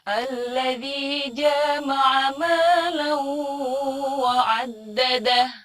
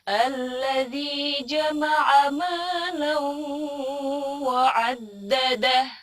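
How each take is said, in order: First: The vowel after the j is held long. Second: The vowel after the j is kept short. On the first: The word comes to mean having intercourse. The speaker calls it wrong. "itu panjang padahal harusnya pendek" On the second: The word means gathering. The speaker calls it right. "Jadi bacanya pendek"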